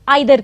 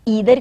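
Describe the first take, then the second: First: The first vowel sounds like 'eye'. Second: The first vowel sounds like 'ee'. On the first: "कुछ लोग आइदर कहते हैं" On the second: "कुछ लोग ईदर कहते हैं"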